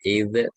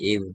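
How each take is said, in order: First: The consonant ends with a bounced, echoing release. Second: The consonant stops cleanly without any echoing release. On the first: The speaker calls it wrong. "jangan dikokolahkan Pak. Ya, tidak id" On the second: The speaker calls it right. "tapi id"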